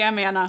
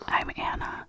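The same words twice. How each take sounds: First: It is in a normal, louder voice. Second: It is whispered.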